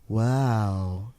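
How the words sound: It sounds flat and tired.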